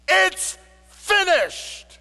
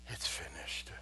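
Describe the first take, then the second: First: It is said boldly, like a loud battle cry. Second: It is said weakly, like a tired whimper. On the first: The speaker announces a completed victory. The speaker calls it right. "a battle cry" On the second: The speaker is giving up in exhaustion. The speaker calls it wrong. "in some sort of a whimper"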